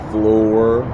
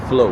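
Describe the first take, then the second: First: The final R sound is pronounced. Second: The final R sound is dropped. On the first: "like the word floor" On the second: "we say flow"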